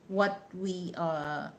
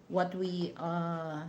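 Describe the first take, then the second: The two takes are said the same way.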